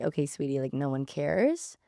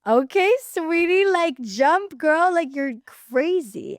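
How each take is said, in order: First: Low, softer, unimpressed brush-off; dismissive guys. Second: High, loud, drawn-out cheering; hyping girls. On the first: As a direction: imitate guys who couldn't care less. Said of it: "all the guys were like". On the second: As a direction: imitate girls hyping up their friend. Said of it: "all the girls were like". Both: Retold or imitated.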